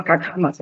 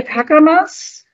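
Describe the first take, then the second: First: Kakamas said lower and softer; alternative pronunciation. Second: Kakamas drawn out slowly, higher and rising; tentative pronunciation. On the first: Presenter correcting the place name, lower second Kakamas. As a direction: offer Kakamas as the second try, dropped in pitch and volume. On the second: Presenter unsure of the place name, tentative Kakamas. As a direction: try out Kakamas slowly, pitched up like a question. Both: Shown as a demonstration. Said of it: "I think is how you pronounce it".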